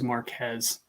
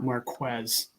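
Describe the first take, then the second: First: The name is said without a W sound. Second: The name is said with a W sound. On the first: The speaker calls it wrong. "I thought it was Marquez" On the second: The speaker calls it right. "I didn't know there was a W sound in there as well"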